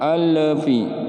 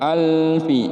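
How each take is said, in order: First: The L bounces with an extra echo. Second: The L stops cleanly with no echo. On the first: The speaker calls it wrong. "nggak boleh alfi" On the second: The speaker calls it right. "harus bersih huruf lamnya"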